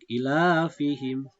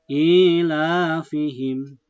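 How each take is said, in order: First: The first vowel is held only briefly. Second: The first vowel is held longer. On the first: The speaker calls it wrong. "i-nya terlalu pendek" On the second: The speaker calls it right. "i-nya harus panjang"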